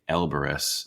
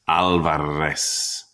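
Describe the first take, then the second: First: The A is flattened and the R not trilled. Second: The A is open and the R trilled. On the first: This is how outsiders mangle the name. The speaker calls it wrong. "How could anyone get Elbarez out of that orchestra of sound?" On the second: This is the family's own way of saying the name. The speaker calls it right. "wide for the organ blast of the A, trilling my tongue for the drum roll of the R"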